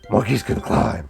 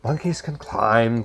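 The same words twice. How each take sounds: First: It is said in a gravelly Batman voice. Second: It is said in a put-on Joker voice. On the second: "the Ledger Joker would be like"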